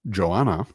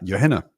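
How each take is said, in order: First: It starts with a J sound and no H. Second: It starts with a Y sound and a soft H. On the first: "whose H is silent" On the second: "like a Y at the beginning and then a very sort of shortened, softened Hannah"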